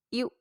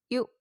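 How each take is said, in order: Both takes have the same delivery.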